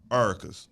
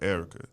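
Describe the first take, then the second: First: The name starts with a reduced 'Ar' sound. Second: The name starts with a clear 'Er' sound. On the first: "That's how we say" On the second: "and I said that right"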